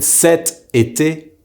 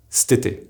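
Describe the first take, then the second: First: 'cet été' slowly with the vowel of cet sounded; careful full form. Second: 'stété' as st-ay-TAY, cet cut to 'st'; contracted form. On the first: Teacher giving an example season, cet été in full. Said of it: "will be pronounced". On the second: Teacher showing how cet été is pronounced, contracted stété. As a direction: run 'stété' into one word with no first vowel. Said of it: "will be pronounced stété". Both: Shown as a demonstration.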